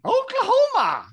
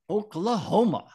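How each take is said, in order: First: It is said with strong feeling. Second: It is said flatly, without feeling.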